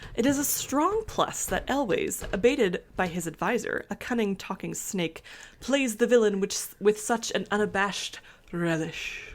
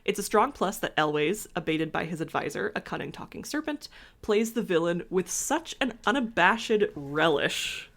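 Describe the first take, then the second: First: It is read in a put-on fancy voice. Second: It is read in her plain everyday voice.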